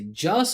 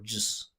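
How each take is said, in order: First: The word is stressed and full. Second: The word is reduced and quick. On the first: It is treated as a content word. "a content or a function word" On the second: It is treated as a function word. "a content or a function word"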